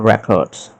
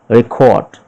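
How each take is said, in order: First: It is said with an American accent. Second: It is said with a British accent. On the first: "American English we pronounce records" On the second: "British English it is pronounced record"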